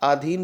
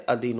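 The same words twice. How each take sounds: First: अधीन begun with long "aa", as aa-dheen; long-vowel mistake. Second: अधीन begun with short "a", as a-dheen; correct short vowel. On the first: Teacher showing the wrong form, अधीन as aa-dheen. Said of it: "अधीन नहीं होता है". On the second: Teacher correcting students, अधीन as a-dheen. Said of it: "अधीन होता है". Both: Shown as a demonstration.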